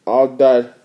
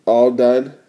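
No difference in how they are said.

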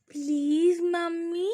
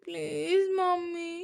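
First: Put-on "please" drawn out high and slow in a child's voice; pleading little girl. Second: Put-on high, slow, whimpering "mummy" from a little girl; cute plea. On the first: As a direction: beg like a small child holding mom's hand. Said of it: "బ్రతిమాలుతూ ఉంది వన్య". ("Please" అని పాప బ్రతిమాలుతూ) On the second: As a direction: act cute and whiny to win mom over. (ముద్దుగా, గారాబంగా "mummy" అనే పాప) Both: A narrator's reading.

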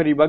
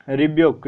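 First: रिबक said with a short plain ब and no yoo glide, RI-buk; रिबक clipped to two short syllables; short rebuke variant. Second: रिब्यूक said with a clear ब्यू glide, ri-BYOOK; रिब्यूक spoken with the yoo sound after ब; rebuke pronounced two ways. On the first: Teacher showing students the other way to say रिबक, short and without the glide. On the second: Teacher showing students one way to say रिब्यूक, with the yoo glide. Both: Shown as a demonstration. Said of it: "यहाँ पे रिबक भी पढ़ते हैं".

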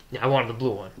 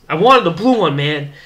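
First: Said in the usual way. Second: Higher, louder playful exclaim, I wanted the blue one; mock outburst. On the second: To Jerry in line, a loud playful complaint. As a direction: blurt it out like a pouting kid.

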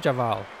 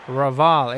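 First: The mistaken Javal, starting with a j sound; wrong name. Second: Raval said with a clear r, ruh-VAHL; corrected name. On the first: Correcting himself on the batsman's name, wrong Javal with j. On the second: Correcting himself on the batsman's name, right Raval with r. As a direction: land the r of Raval firmly. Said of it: "Not Javal". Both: Shown as a demonstration.

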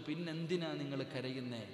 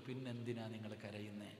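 First: Retold question, raised and louder; emphatic repeated question. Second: Said in the usual way. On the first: Doctor asking a crying patient why, emphatic. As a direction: press the doctor's question harder.

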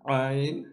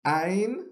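First: Ain said sharp from the inner throat; correct Ain. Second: Ain said from the front of the mouth, without the throat; the incorrect Ain, said lightly up front; wrong Ain. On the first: Teacher shows students the correct Ain. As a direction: squeeze Ain from the back of the throat. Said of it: "which is the correct one". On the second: Teacher shows students the wrong Ain. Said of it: "which is the wrong one". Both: Shown as a demonstration.

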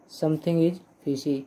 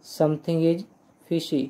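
The two takes are said the same way.

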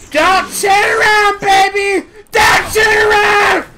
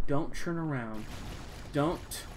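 First: High, full-voice yelling of the phrase; loud shouting. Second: Quiet mutter. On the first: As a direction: belt it out like a chant. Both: Real, not acted. Repeats line quiet then loud.

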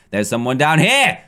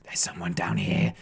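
First: Said in the usual way. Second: Hushed unvoiced whisper. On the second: Real, not acted. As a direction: whisper so the hider won't hear. Spotting a hider, sneaking.

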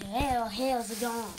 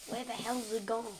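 First: Very loud, drawn-out HELL; mock your own outburst, stretching it loudly; exaggerated self-imitation. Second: Loud, brisk mock outburst; retold puzzled exclamation. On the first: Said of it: "I don't know why I s-, said". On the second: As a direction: blurt it out like a retold reaction. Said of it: "looked at my drawers and went".

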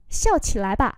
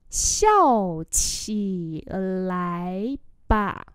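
First: Said in the usual way. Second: Slow, separated syllables; slow model reading. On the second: Shown as a demonstration. Teacher repeating a phrase for learners, slowly. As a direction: draw out each syllable.

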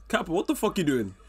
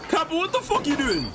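First: Said in the usual way. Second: Shocked yell at Kappa. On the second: Real, not acted. Reacting again, louder higher.

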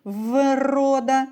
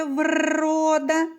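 First: «врода» with a long, held в at the start; drawn-out first sound. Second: «врода» with a long rolled р, pitched higher; drawn-out second sound. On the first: Teacher isolating the first sound, «врода» with stretched в. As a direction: hold the в before going on through «врода». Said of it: "Перший звук у слові". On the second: Teacher isolating the next sound, «врода» with trilled р. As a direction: roll and hold the р in «врода». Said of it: "Наступний звук у слові". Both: Shown as a demonstration.

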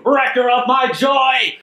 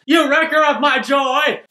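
First: Slow, high, theatrical cry; dramatic accusation. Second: Mock shout. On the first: Retold or imitated. Wendy storming out on Kimmy, hammed-up wail. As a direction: hurl the line like a wronged diva. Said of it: "she storms out". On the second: Narrator echoing Wendy's line, mock yell. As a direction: yell it like a playful accusation.

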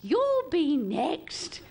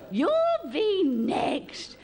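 First: Drawn-out, sing-song You'll be next; old relative teasing. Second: Even slower, louder You'll be next; old relative teasing. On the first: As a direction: tease slowly like a nosy aunt. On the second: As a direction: lean in harder on the tease. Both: Retold or imitated. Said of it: "every old relative came up, right, and went".

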